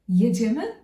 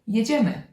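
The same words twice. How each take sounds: First: The pitch rises at the end of the word. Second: The pitch falls at the end of the word. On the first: It asks whether they are leaving now. "are we going? Are we moving now?" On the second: It announces that they are leaving now. "Or let's go"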